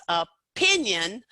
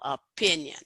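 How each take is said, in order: First: "opinion" split after the first sound, with PIN stressed hard; stress on second syllable. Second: "opinion" with PIN stressed, falling away after it; stress on second syllable. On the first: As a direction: pause after the O, then punch the PIN of "opinion". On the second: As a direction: model "opinion" with the weight on the middle syllable. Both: Shown as a demonstration. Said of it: "most stress on that second syllable".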